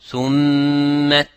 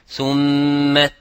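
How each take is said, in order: Both takes have the same delivery.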